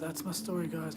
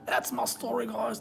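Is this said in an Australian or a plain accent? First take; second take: plain; Australian. First: It is said in the speaker's normal accent. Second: It is said in an Australian accent.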